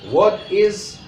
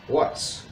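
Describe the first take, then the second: First: The verb is said as a separate full word. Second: The verb is shortened and joined to the word. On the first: The speaker calls it wrong. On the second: The speaker calls it right. "Use a contraction"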